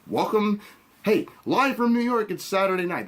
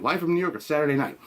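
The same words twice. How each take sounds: First: Lightly hammed-up show opener, higher; a hint of an announcer calling out the opener; SNL host announcement. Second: Said in the usual way. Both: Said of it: "that Melissa McCartney's gonna say".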